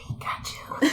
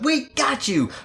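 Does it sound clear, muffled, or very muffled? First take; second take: very muffled; clear. First: It is said in a more muffled voice. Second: It is said clearly, not muffled.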